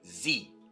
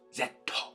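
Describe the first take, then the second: First: The letter is said as the English 'zee'. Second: The letter is said as the Japanese 'zetto'.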